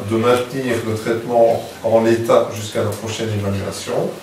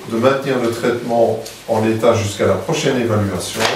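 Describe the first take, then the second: Both takes have the same delivery.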